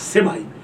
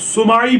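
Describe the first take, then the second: First: The first vowel is an 'i' sound. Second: The first vowel is a 'u' sound.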